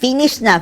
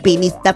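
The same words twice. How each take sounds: First: The word begins with an F sound. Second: The word begins with a P sound. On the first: This is the word as it is meant. "sasabihin niya" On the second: This is how a speaker who cannot pronounce F says it. "Ang F, ginagawang P... Ang kanya"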